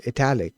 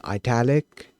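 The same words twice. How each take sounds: First: ITALIC said "ih-TAL-ic", short first vowel; italic like Italian. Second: ITALIC said "eye-TAL-ic"; italic with long I. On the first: Shown as a demonstration. Coder guessing the word from Italian, ih-TAL-ic pronunciation. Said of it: "we were going based off of, you know, Italian". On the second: Retold or imitated. Coder reporting what they heard people saying, eye-TAL-ic pronunciation. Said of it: "then I heard people saying".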